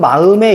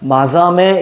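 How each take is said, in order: First: There is no consonant between the vowels. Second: A buzzing z-like consonant sits between the vowels. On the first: This is how it is read today. "지금 마음에 이렇게 읽지만" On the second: This is how it was read long ago. "옛날에 마삼에 이렇게 읽었다는 얘기예요"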